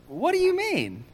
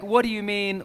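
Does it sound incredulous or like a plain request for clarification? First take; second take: incredulous; clarification. First: It sounds incredulous, like disbelief. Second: It sounds like a plain request for clarification.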